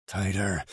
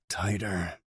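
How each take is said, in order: Both takes have the same delivery.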